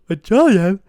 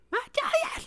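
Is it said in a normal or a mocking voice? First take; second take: normal; mocking. First: It is said in his normal voice. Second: It is said in a mocking put-on voice.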